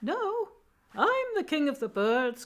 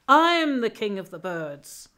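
First: High, small bird voice; little wren voice. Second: Loud, slow proclamation; triumphant eagle. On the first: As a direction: pipe up in a tiny high-pitched voice to contradict. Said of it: "up popped a little voice saying". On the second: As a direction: announce it like a proud ruler of the sky. Eagle proudly claims the crown. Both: Acted.

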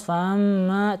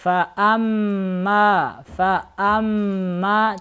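First: Wrongly nasal "фа-амма"; through the nose. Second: Said in the usual way. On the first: Shown as a demonstration. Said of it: "Через нос". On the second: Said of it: "Так не читайте".

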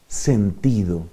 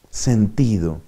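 No difference in how they are said.

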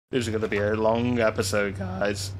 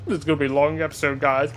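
First: Real accidental voice crack; voice breaking. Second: Said in the usual way. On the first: Real, not acted. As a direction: voice cracking on the line, a bit lower. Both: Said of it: "Oh, me voice break?".

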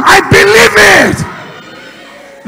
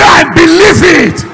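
First: Chanted, very slow, stretched, every syllable of "I believe it" held long; chanted, drag "I believe it" out slowly for the last time; chanted, pastor stretching the closing repeat of "I believe it" very slowly; drawn-out final chant. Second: Loud chant line led for the crowd; chanted, call it out for them to repeat; chanted, pastor leading the congregation in a loud call. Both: Shown as a demonstration. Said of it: "Say it one more time".

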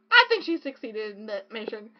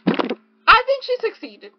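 First: Said in the usual way. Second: High, loud, slow awe; gushing praise. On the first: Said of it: "repeated calmly". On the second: Real, not acted. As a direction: melt over the author's success.

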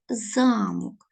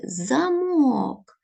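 First: Замок stressed on the first syllable ЗА, falling. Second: Замок stressed on the final -ок. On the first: Teacher contrasting two words for pupils, ЗАмок. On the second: Teacher contrasting two words for pupils, замОк. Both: Shown as a demonstration. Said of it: "Отже".

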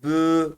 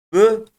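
First: Bü with a long, held ü; drawn-out bü; lengthened vowel. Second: Bü short and higher; short vowel. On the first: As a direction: stretch the ü of bü. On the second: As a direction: keep the ü of bü brief. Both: Shown as a demonstration. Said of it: "uzatma görevi yapıyor".

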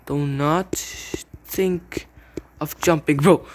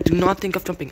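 First: Drawn-out word-by-word warning; very slow, deliberate command. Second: Quick, exasperated repeat of a warning; fast indignant telling-off; rushed scolding. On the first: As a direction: stretch each word with pauses between. Slow warning to opponent, then repeated fast. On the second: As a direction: rattle off the reprimand in one go. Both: Real, not acted.

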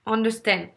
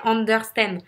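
First: Said in the usual way. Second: UNDERSTAND in a French accent, R sounded; French-accented UNDERSTAND, every syllable pronounced. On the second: Shown as a demonstration. Coach resuming the demo word, French accent. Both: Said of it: "je reprends l'accent français".

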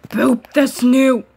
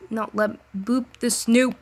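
First: Slow, louder cooing at a pet. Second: Said in the usual way. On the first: Real, not acted. Repeats in baby voice.

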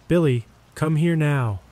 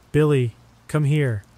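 First: Higher, more desperate call; mother's panicked demand for her son to come; mom screaming louder. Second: High urgent call; frantic mother shouting for her son; mom screaming. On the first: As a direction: insist in rising panic. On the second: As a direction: call the boy in a panic. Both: A narrator's reading. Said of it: "Mom began screaming".

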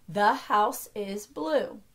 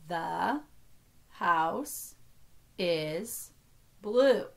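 First: Said in the usual way. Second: Every word alone, with a pause after it. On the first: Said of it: "Next sentence". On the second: Shown as a demonstration. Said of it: "only count each word as one".

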